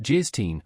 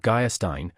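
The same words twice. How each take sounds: First: Gierstein said with a hard G and a short first syllable, slowed; corrected pronunciation. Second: Geierstein said as written, with a lightly read eye sound; spelled pronunciation. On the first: An auctioneer correcting himself, Gierstein said slowly and pointedly. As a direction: say Gierstein carefully, as the right form. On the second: An auctioneer reading a title aloud, Geierstein said as written. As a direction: say Geierstein the bookish way, as printed. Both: A narrator's reading. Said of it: "pronounced Gierstein".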